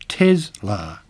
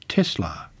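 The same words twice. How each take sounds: First: The S is voiced, like a buzzing z. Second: The S is unvoiced, like a hissing s. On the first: This is the form the company head prefers. "prefers to say Tesla instead" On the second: This is the form purists consider correct. "the unvoiced S is the correct way to say it"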